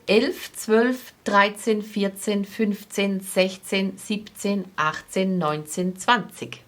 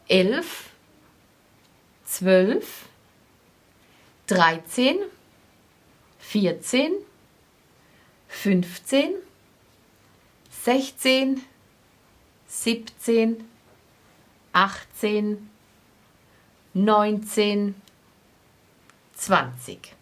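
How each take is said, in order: First: The numbers are counted fast. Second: The numbers are counted slowly.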